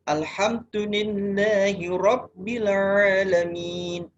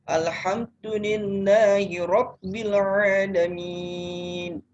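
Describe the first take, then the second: First: The final vowel is held for two beats. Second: The final vowel is held for four beats. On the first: "boleh memilih dua ketuk" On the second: "Boleh empat ketuk"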